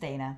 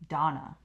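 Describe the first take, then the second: First: The name is said like Dana. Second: The name is said like Donna. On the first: This is the owner's own pronunciation. The speaker calls it right. "a simple correction, like it's Dana" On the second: Others read the spelling this way. The speaker calls it wrong. "some people pronounce it Donna"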